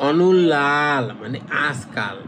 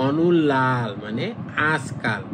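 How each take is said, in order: No difference in how they are said.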